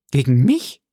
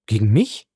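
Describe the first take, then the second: First: Mildly astonished question, rising at the end; a touch of startled surprise. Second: Said in the usual way. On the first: A narrator's reading. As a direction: ask it in disbelief. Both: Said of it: "versetzte Valentine erstaunt".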